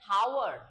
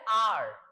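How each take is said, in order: First: The word begins with an h sound. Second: The word begins with a vowel, no h. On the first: The speaker calls it wrong. "कोई कोई बोलता है हावर्ड, but that's not" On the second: The speaker calls it right. "ये होता है आर। इसमें H जो है इसका प्रोनाउंसिएशन नहीं होगा"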